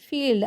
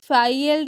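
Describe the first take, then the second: First: The vowel is a long 'ee' sound. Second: The vowel is an 'eye' sound. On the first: The speaker calls it right. "Long long sound होगी" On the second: The speaker calls it wrong. "फाइल्ड नहीं"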